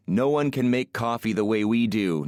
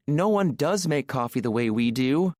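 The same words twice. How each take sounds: First: Lightly mocking boast, near the usual voice; teasing mock quote. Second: High woman's voice insisting on "does"; stress on DOES. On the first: Man teasing an Italian woman about coffee snobs, mildly mocking. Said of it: "Those Italians". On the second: Acted. Italian woman rebutting her teasing driver, stressing "does". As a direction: lean on "does" to confirm the boast, pitched up. Aurora insists the boast is true.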